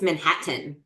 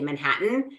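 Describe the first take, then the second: First: The t sounds are clearly pronounced. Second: The t sounds are dropped, not released. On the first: "there's two T's" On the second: "Why are you not pronouncing either of them?"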